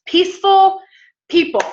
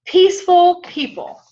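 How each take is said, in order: First: Emphatic proclamation. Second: High, loud, drawn-out announcement of the point; emphatic proclamation. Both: Real, not acted. Preacher to congregation, announcing the key, loud and high.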